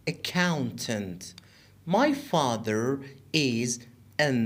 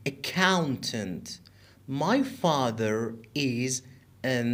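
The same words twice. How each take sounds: The two takes are said the same way.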